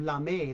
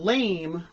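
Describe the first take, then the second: First: It is said as two syllables, ending in ay. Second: It is said as one syllable, rhyming with game. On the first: It means a shiny metallic fabric. The speaker calls it right. "accentuated for the French pronunciation of lame" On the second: It means weak or uncool. The speaker calls it wrong. "Not lame"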